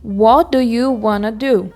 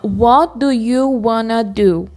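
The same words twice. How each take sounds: No difference in how they are said.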